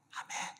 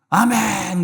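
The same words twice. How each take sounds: First: It is said quietly and weakly. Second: It is said loudly and strongly.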